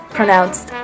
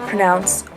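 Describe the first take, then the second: No difference in how they are said.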